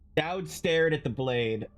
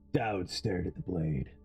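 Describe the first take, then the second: First: It is read in the reader's normal voice. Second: It is read in a put-on Dowd voice.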